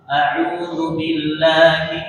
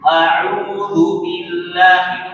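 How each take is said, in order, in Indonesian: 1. Kata-katanya dibaca dengan tenang dan santai. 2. Setiap huruf diucapkan dengan tekanan yang berlebihan. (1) "menjadi normal kembali" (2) "itu awal awal sekali"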